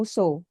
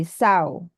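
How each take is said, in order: First: "so" with a long o, as in go; plain round "so", rhyming with go; wrong pronunciation. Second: "sao" said with an ow sound, rhyming with cow; correct pronunciation. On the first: Tutor showing the "so" she mistakenly said. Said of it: "I pronounce it the same, like so". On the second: Tutor giving the correct sow after her wrong so. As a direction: open "sao" gliding from ah to oo. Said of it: "supposed to be sao". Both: Shown as a demonstration.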